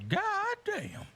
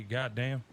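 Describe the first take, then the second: First: Very high, squeaky God damn; mimicking a friend's squeaky God damn; friend's odd God damn. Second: Said in the usual way. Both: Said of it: "how my friend used to say".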